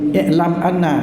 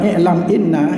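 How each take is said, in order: First: The second word begins with an a vowel. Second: The second word begins with an i vowel. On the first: The speaker calls it right. "dibaca fathah" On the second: The speaker calls it wrong. "itu salah"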